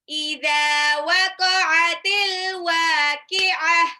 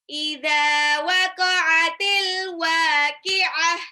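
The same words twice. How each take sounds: No difference in how they are said.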